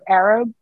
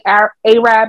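First: The word begins with an 'ar' sound, like 'AR-ab'. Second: The word begins with an 'ay' sound, like 'AY-rab'. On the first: The speaker calls it right. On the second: The speaker calls it wrong.

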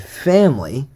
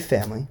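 First: The word is said with heavy, exaggerated emphasis. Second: The word is said plainly, without extra emphasis. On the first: It means close people who are not blood related. "try to emphasize as much as I can" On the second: It means blood relatives. "When I say family, there's normal. I mean blood related"

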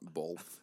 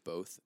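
First: It is said with a Utah-style pronunciation. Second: It is said with a standard pronunciation. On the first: The speaker calls it wrong. "and not both ... I used to say both ... Because I'm from Utah" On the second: The speaker calls it right. "I'm so glad you said both"

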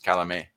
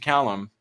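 First: The name is said with a French pronunciation. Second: The name is said with an American pronunciation. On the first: "the Swiss French pronunciation is Calame" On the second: "We turned it to Callum"

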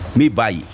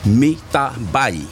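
First: The middle word is swallowed and dropped. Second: All three words are said in full.

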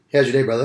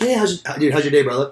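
First: The voice sounds flat and uninterested. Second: The voice sounds warm and genuinely interested. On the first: The speaker does not care about the person. The speaker calls it wrong. "My shoulders are down and my voice is like, I could give a fuck" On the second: The speaker actually cares about the person. The speaker calls it right. "if you just go talk to someone like your buddy, like"

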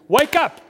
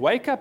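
First: It is said forcefully and loudly. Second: It is said calmly, as plain reading.

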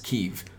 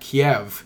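First: The name is said the Ukrainian way. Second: The name is said the Russian way. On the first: The speaker calls it right. "the correct pronunciation is Kyiv" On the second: The speaker calls it wrong. "that's apparently the Russian pronunciation"

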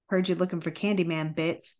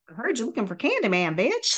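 First: It is said in a calm, mellow way. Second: It is said in an innocent, friendly way.

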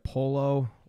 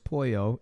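First: The double L is said like an L. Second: The double L is said like a Y. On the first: The speaker calls it wrong. "they mispronounce all the" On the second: The speaker calls it right. "two L's is a Y sound"

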